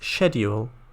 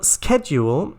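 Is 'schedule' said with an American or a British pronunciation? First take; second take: British; American. First: It is said with a British pronunciation. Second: It is said with an American pronunciation. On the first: "The British pronunciation is schedule" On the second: "schedule is the American pronunciation of it"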